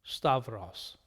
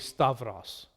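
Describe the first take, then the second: First: The middle has a 'v' sound. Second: The middle has a 'v' sound.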